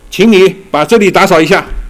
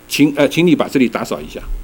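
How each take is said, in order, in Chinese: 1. 它是用指责、埋怨的语气说的。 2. 它是用平静、中性的语气说的。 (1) "我后一种就完全是指责的那种口气" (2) "这没什么，"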